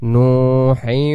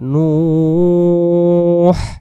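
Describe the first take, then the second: First: The word gains an ending and runs straight on. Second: The word ends the phrase, followed by a breath. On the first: "দম ধরে গেলে নূহিন" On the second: "আমরা দম ছেড়ে দিলে নূহ বলতে পারবো এবং টান দিয়ে দমটা ছেড়ে দিতে হবে"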